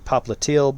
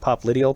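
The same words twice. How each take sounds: First: The stress falls on a later syllable. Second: The stress falls hard on the first syllable. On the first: The speaker calls it right. "it's actually popliteal" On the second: The speaker calls it wrong. "it really emphasizes the pop"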